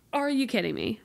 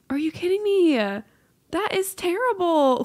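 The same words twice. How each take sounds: First: Said in the usual way. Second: Higher, louder indignant cry, That is terrible drawn out slowly; outraged disbelief. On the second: Real, not acted. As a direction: cry out in mock outrage at the cycle. Outraged at the cycle.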